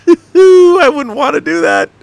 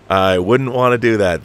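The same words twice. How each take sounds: First: Very high, slow, loud falsetto; comic high-pitched mock voice; squeaky silly voice. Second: Said in the usual way. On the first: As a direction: squeal it in a cartoonish voice.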